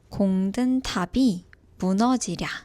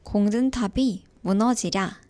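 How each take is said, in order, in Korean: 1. 이 표현은 느리게 말합니다. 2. 이 표현은 빠르게 말합니다. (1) "같이 말해볼게요" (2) "조금 더 빨리 말해볼게요"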